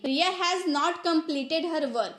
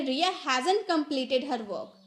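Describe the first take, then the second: First: Said in the usual way. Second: "hasn't" as one word, HAZ-unt; fast-English contraction. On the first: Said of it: "ये तो normal English हो गया ना". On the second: Shown as a demonstration. Teacher turning normal English into fast English, contracted "hasn't". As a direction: run has and not together into "hasn't". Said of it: "हम यहाँ पे fast English बोल रहे".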